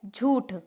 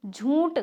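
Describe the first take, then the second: First: झूठ with a clean oo, no n sound; plain jhooth for झूठ; correct oral pronunciation. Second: झूठ said as jhoonth; nasal oo in झूठ; wrong nasalised pronunciation. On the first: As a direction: say झूठ as jhooth, vowel not nasalised. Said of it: "तो शुद्ध क्या है?". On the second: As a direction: put a stray n sound into झूठ. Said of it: "बिल्कुल गलत". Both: Shown as a demonstration.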